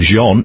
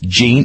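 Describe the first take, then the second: First: The name is said the French way. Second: The name is said the English way.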